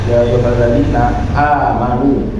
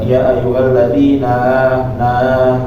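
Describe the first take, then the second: First: A clear glottal stop separates the words. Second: The n runs straight into the vowel. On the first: The speaker calls it right. "ketika mengucapkan hamzah itu mengucapkannya dengan jelas ya" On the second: The speaker calls it wrong. "jangan membacanya"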